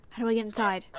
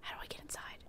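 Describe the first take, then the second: First: Said in the usual way. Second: Barely voiced, under the breath; whispered musing. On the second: Real, not acted. Player puzzling over the photo booth, whispered aside. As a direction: whisper the question to yourself.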